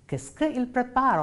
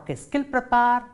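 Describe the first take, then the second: First: "que il" said as two separate words; unelided form. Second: "qu'il" run together as one syllable, "kil"; elided form. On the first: Teacher models the French question for students, unelided "que il". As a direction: keep "que" and "il" apart, without elision. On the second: Teacher offers students the alternative question, elided "qu'il". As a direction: join "qu'il" into a single sound, dropping the e. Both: Shown as a demonstration. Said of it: "Or qu'est-ce qu'il prépare".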